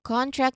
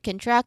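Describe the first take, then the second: First: The stress is on the first syllable. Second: The stress is on the second syllable. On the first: It names an agreement. "Contract is the agreement" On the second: It means to shrink. "Contract is the um we shrink"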